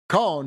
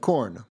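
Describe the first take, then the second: First: The R sound is dropped. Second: The R sound is pronounced.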